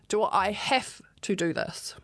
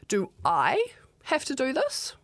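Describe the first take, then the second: First: The stress falls on the words have to. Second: The stress falls on the word I. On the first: Asks whether the task is truly required. "if it is you, is it a have to?" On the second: Asks whether someone else could do the task. "does it have to be you or can it be someone else?"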